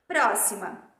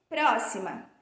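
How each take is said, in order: Both takes have the same delivery.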